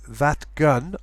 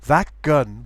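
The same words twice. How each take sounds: First: The t of that stays voiceless. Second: The t of that shifts toward a k. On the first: "So you would say that gun" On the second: "you can use the change of place. ... That gun would work okay"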